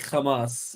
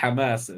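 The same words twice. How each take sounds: First: It begins with a harsh, scraping kh sound. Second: It begins with a breathy, throaty h sound. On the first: This is how Israelis say it. "Israelis say Hamas because they don't pronounce a hate" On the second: This is how Arabs say it. "for Arabs we say Hamas because we can pronounce the hate"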